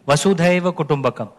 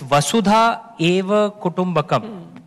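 First: The first two words merge into one. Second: The first two words are said separately. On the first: "when you do a sandhi" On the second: "you have to know it's Vasudha Eva Kutumbakam"

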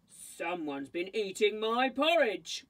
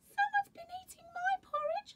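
First: It is said in a deep, growling voice. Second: It is said in a high, squeaky voice.

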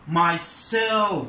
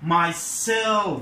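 First: The stress falls on the second syllable, 'self'. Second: The stress falls on the second syllable, 'self'.

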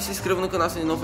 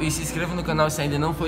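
First: The sentence is spoken at a fast pace. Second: The sentence is spoken at a slower pace. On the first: The speaker calls it wrong. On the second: The speaker calls it right.

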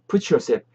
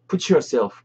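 First: The t and y blend into one sound. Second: The t and y are said separately. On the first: "그 T 사운드랑 Y 사운드랑 붙어서 이렇게 되는 거예요" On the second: "put yourself도 맞고"

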